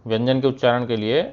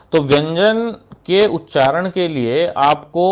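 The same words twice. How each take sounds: First: Said in the usual way. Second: व्यंजन के उच्चारण के लिए spoken slowly, each word spaced out; slow emphasis. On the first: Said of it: "repeats phrase plainly". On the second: Shown as a demonstration. Teacher to students, stressing व्यंजन के उच्चारण slowly. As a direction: lay it out slowly for the class. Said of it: "teacher stresses key phrase".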